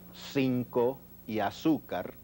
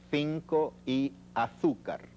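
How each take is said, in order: First: The c and z sound like s. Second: The c and z sound like th. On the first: "en el español de América diríamos" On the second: "el español de Castilla en estos casos articula un sonido algo así como"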